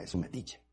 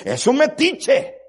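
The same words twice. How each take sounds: First: Said in the usual way. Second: "es un metiche" shouted high and loud, slowly, falling on "metiche"; loud and slow "es un metiche" from the pulpit; stressed slow climax. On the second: Acted. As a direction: punch out "es un metiche" as the peak.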